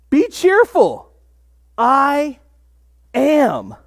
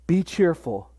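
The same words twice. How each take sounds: First: Ringing proclamation. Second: Soft, intimate. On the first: Preacher voicing Jesus calling Be cheerful to the disciples, slow and ringing. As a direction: call it out with joy like a proclamation. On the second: Preacher voicing Jesus comforting the frightened disciples, softly. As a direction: lower and much softer, gently spoken. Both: Retold or imitated.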